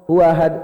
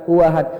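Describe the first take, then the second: Both takes have the same delivery.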